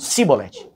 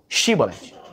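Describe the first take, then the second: First: The word begins with a plain 's' sound. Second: The word begins with a hushing 'sh' sound. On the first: The speaker is from Ephraim. The speaker calls it wrong. "Os efraimitas não conseguiam chiar. Eles falavam sibolete" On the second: The speaker is not from Ephraim. The speaker calls it right. "Os demais chiavam shibolete"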